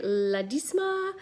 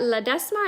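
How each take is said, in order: First: "Ledesma" with long ee in the middle, drawn out; alternative pronunciation. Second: "Ledesma" with short e in the middle, rising; unsure pronunciation. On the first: Host retrying a viewer's name, slow ee in "Ledesma". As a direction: slowly try "Ledesma" as le-DEEZ-ma. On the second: Host greeting a viewer, unsure short e in "Ledesma". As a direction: try "Ledesma" as le-DEZ-ma, as a question. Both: Real, not acted. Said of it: "I don't know if I'm saying that right".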